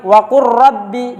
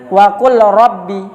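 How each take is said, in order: First: The L merges fully into a doubled R. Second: The L is clearly heard before the R. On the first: The speaker calls it right. "Lamnya tidak di dibaca" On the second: The speaker calls it wrong.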